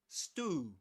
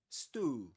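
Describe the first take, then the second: First: It is said in an American accent. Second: It is said in an American accent.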